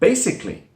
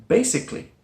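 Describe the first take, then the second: The two takes are said the same way.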